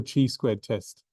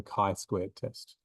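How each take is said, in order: First: "chi" said as CHEE, with a ch sound; mispronounced CHI. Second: "chi" said as KAI, rhyming with sky; English-style CHI. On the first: Teacher warning students off a mistake, "chi" said as chee. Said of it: "So do not call it". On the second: Teacher giving students the English name, "chi" as kai. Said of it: "but in English". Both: Shown as a demonstration.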